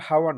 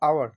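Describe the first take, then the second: First: The word begins with an h sound. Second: The word begins with a vowel sound. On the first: The speaker calls it wrong. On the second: The speaker calls it right.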